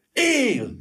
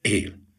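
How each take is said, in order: First: "Él!" cried out much higher, bursting with relief; elated cry. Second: Deflated. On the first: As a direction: shout "Él!" as if electrified with joy. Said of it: "Kiáltott fel Gyuri felvillanyozva". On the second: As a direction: let "Él." sink as the bitter truth lands. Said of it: "lesújtotta a levont következtetés". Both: A narrator's reading.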